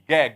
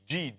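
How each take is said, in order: First: The letter is sounded as a hard 'g'. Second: The letter is sounded as a soft 'j'. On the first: "In Egypt, we don't say G... We say it what?" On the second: "it's supposed to be G"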